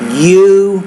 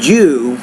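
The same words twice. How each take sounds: First: The word begins with a Y sound. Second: The word begins with a J sound. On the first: The speaker calls it right. "not a Y, but it's you" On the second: The speaker calls it wrong. "you're almost saying it with a J"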